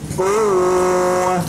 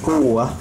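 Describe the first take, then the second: First: The first vowel is drawn out long. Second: The first vowel is short, with a pressed stress. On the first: The speaker calls it wrong. "tidak boleh kuwah, ... tidak dengan mat" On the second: The speaker calls it right. "Ketika membaca kuwah"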